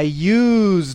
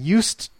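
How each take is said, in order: First: The consonant in the word is a z sound. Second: The consonant in the word is an s sound. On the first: It means made use of something. "this is a Z, Z, Z sound" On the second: It describes a past habit. "And that's with an S sound"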